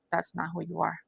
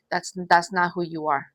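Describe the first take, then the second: First: Much softer, gentle repeat; soft reassuring echo. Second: Said in the usual way. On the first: Real, not acted. Reader comforting the viewer, repeating it softly.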